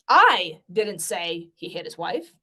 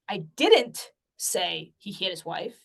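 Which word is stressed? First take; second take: I; didn't. First: The stress is on the word I. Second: The stress is on the word didn't.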